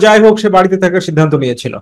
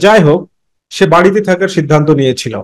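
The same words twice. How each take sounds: First: It runs on with no pause after jai hok. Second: There is a short pause after jai hok. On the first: The speaker calls it wrong. "তাহলে তো হলো না" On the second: The speaker calls it right. "তাহলে ব্যাপারটা কত চমৎকার হয়ে গেল"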